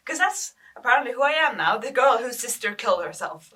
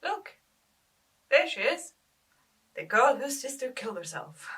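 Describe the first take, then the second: First: Loud, bitter echo of the label; bitter outburst. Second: Higher-pitched mimicry of pointing schoolmates; gossiping schoolmates. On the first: Acted. Grieving sister repeating what schoolmates call her, loudly bitter. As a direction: throw the label back, much louder. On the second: Schoolmates pointing her out in the lunch hall, mimicked gossip. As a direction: imitate a schoolmate pointing someone out. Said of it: "point me out to their mates".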